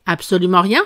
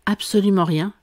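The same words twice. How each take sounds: First: "Absolument rien" with the voice rising sharply on "rien"; insistent question. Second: "Absolument rien" leaning on "Absolument", little lift on "rien"; firm answer. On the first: King pressing Alice, questioning rise on "rien". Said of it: "insista le roi". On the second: Alice answering the King, "Absolument rien" stated firmly. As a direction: state it as settled, weight on "Absolument". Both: A narrator's reading.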